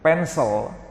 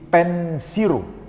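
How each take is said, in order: First: The word ends with a clear L sound. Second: The L becomes R with an added final vowel. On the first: "Pencil susah" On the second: "L bergeser ke R. Itu pun ditambah dengan vokal"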